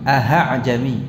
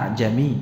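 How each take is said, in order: First: An h sound is heard inside the word. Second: A softened glottal sound, with no h. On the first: The speaker calls it wrong. "Kadang sekilas terkesan kayak membaca ha" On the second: The speaker calls it right. "dibaca dengan tashil ya, jangan dipanjangkan, jangan pula dibaca dengan ha"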